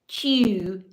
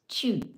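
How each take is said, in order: First: It is said in a drawn-out Southern way. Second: It is said nasally with pursed lips. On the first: The speaker calls it wrong. "Instead of saying chew, because I am from the South" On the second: The speaker calls it right. "purse your little, your lips and go chew"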